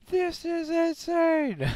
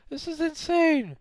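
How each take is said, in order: First: Slow, stretched, high disbelieving cry; slow drawn-out cry of disbelief; drawn-out shocked yell. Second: Shocked yell. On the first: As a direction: stretch every word out in shock. Repeats the shout drawn out. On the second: Shocked reaction while playing. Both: Real, not acted.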